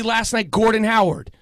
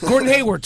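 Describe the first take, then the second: First: Gordon Howard said for Hayward; wrong name. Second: Gordon Hayward said correctly; corrected name. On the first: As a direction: Howard instead of Hayward, slip. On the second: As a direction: Hayward fixed after the slip. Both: Real, not acted.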